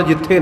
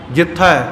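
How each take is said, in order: First: ਜਿੱਥੇ as "jit-thay", closed e; ਜਿੱਥੇ with e, not ai; wrong closed vowel. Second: ਜਿੱਥੈ as "jit-thai", open ai; ਜਿੱਥੈ with ai, not ay; open final vowel. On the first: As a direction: end ਜਿੱਥੇ on a narrow ay. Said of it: "ਨਹੀਂ ਹੈ". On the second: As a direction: end ਜਿੱਥੈ on a broad ai. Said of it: "ਥੱਥੇ ਨੂੰ ਦੁਲਾਵਾਂ ਨਾਲ". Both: Shown as a demonstration.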